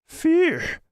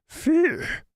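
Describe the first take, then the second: Both takes have the same delivery.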